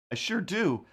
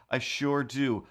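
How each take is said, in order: First: Higher, eager I sure do; a bright, eager reply; eager yes. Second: Said in the usual way. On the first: Real, not acted. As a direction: answer the TV keenly. Answering the TV prompt.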